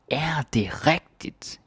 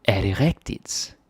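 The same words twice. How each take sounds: First: "Er det rigtigt?" pitched high and slow with a big rising tune; disbelieving. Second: Said in the usual way. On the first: Shown as a demonstration. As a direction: sound like you can't believe it. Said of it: "when we are sort of not believing".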